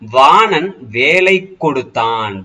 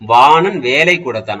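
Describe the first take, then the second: First: The k sound before the verb is stressed and doubled. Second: The k sound before the verb is plain and single. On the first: He gave a spear. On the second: He gave some work.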